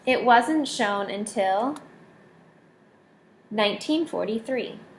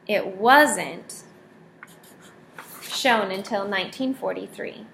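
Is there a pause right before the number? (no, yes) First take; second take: yes; no. First: A pause comes just before the number. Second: No pause comes just before the number. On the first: The listener is readied to hear the number. "So we like to have the pause before, so we're ready to hear the words" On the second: The negation is new information. "there could be another possibility. So wasn't the not is almost always new information"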